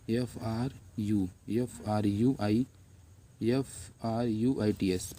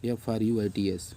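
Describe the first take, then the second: First: Letter by letter, slow enough for students to write; slow classroom spelling; slowly spelled. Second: Said in the usual way. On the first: Shown as a demonstration. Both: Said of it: "मैं धीरे धीरे बोल रहा हूँ".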